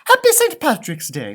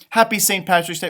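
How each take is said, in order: First: It is said with a slight Irish accent. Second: It is said in the speaker's ordinary accent.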